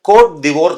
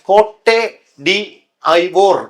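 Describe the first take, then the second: First: The 'd' is joined onto the following word. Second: It is read as three separate words. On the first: The speaker calls it right. "ഫ്രഞ്ചിൽ വായിക്കുന്നത് കോട്ട് ദിവോർ എന്നാണ്" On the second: The speaker calls it wrong. "കോട്ടെ ഡി ഐവോർ എന്നാണ് എന്റെ പേര്"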